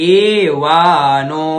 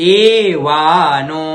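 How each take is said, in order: Both takes have the same delivery.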